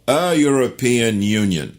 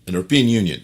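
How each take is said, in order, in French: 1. « European » commence par un son y. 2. « European » commence sans son y.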